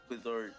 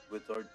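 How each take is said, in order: Both takes have the same delivery.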